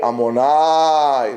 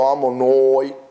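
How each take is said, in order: First: The last syllable has an open 'ah' vowel. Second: The last syllable has a rounded 'oh' vowel. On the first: The speaker calls it right. "long one, nai, long" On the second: The speaker calls it wrong.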